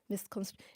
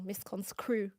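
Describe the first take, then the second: First: The middle cluster is pronounced as 'str'. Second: The middle cluster is pronounced as 'scr'. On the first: The speaker calls it right. "to say it properly" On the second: The speaker calls it wrong. "All of them are saying misconscrew"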